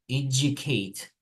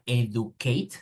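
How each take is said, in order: First: The first part sounds like 'edge'. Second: The first part sounds like 'ed-oo'. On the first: The speaker calls it right. "sería educate" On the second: The speaker calls it wrong. "No sería educate"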